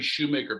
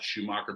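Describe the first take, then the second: First: The second syllable sounds like 'make'. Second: The second syllable sounds like 'mock'. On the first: The speaker calls it right. "It's Craig Shoemaker" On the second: The speaker calls it wrong. "not Schumacher. People call me Schumacher. It drives me nuts"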